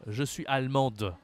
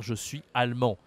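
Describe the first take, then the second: First: ALLEMANDE with sounded final d; feminine form, mistaken. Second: ALLEMAND ending on nasal "an", silent d; masculine form, corrected. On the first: Retold or imitated. Teacher quoting a male student's mistake, feminine ending. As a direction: close "allemande" on a clear d. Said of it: "Non, si c'est un homme". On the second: Shown as a demonstration. Teacher correcting a male student, masculine ending. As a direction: leave "allemand" open, no d. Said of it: "il doit dire".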